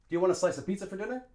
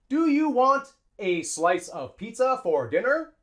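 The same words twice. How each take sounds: First: It is said quickly, with words linked. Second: It is said slowly, word by word.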